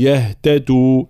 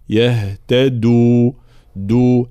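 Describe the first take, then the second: First: يهتدوا sounding like يهتتو; wrong devoiced dal. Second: Slow يهتدوا with a solid دو; correct voiced dal. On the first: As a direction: weaken the د of يهتدوا into a breathy ت. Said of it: "يتأثر الدال بوجود الهاء والتاء". («يهتدوا» بدال مهموسة كالتاء) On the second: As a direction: voice the د firmly after the breathy هت in يهتدوا. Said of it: "هكذا يكون صوت الدال". («يهتدوا» بدال مجهورة واضحة) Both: Shown as a demonstration.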